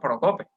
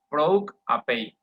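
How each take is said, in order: First: The word ends with a plain 'pe' sound. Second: The word ends with a 'pay' sound. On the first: The speaker calls it wrong. "a lo costeño, ¿verdad? A lo llanero" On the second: The speaker calls it right. "se pronuncia proc apei"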